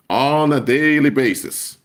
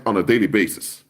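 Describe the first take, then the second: First: "On a daily basis" drawn out slow, "daily" stretched; emphatic repeat. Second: Said in the usual way. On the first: Real, not acted. Preacher telling saints they are scammed, "daily" drawn out emphatically.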